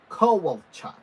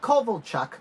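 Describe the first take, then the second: First: The middle consonant is a W sound. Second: The middle consonant is a V sound. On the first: The speaker calls it right. "with a W" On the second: The speaker calls it wrong. "Not Kovalchuk"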